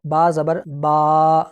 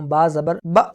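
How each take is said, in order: First: The final vowel is stretched out long. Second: The final vowel is cut short with a jerk. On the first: "अगर मैं इसको लंबा करके पढ़ूं तो वो ऐसे पढ़ा जाएगा" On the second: "अब ये झटका हो गया"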